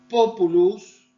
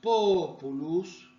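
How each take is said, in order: First: The first vowel is held briefly. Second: The first vowel is held long. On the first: It means people. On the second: It means elm tree.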